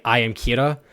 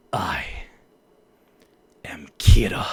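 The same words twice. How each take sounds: First: Said in the usual way. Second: A low, straight menacing read; low menacing Kira. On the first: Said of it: "So, like, in the line". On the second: Shown as a demonstration. Voice actor demoing a line for a client, low and menacing. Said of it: "I could be like".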